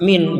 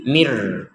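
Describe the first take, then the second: First: The word ends with a clear n sound. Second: The n merges into an r sound. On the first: The reciter stops here before the next word. "tapi harus dibaca min" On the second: The word is joined to the following word. "ketika digabung menjadi mir"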